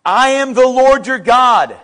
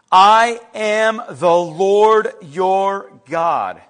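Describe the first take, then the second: First: Loud, firm scripture proclamation; emphatic declaration. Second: Very slow, weighty proclamation; slow, deliberate repeat. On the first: Preacher proclaims God's words to congregation, emphatic. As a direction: declare it boldly in one sweep. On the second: Preacher repeats God's words to congregation, slow and deliberate. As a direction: let each word stand on its own. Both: Acted.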